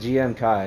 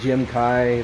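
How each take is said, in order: First: The first part is spelled out as two letters. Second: The first part is said as one word, Jim. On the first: The name is read as an abbreviation. "I always thought it was G M because it stands for Gundam Mass Produced" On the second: The name is read as a single word. "I've heard people call it a Jim"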